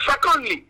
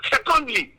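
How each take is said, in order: Both takes have the same delivery.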